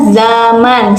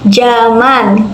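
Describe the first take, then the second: First: The word begins with a z sound. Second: The word begins with a j sound. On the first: This is the standard form. The speaker calls it right. "Kata bakunya zaman, ... awalannya menggunakan huruf Z" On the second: This is the non-standard form. The speaker calls it wrong. "kata tidak bakunya ... menggunakan huruf J"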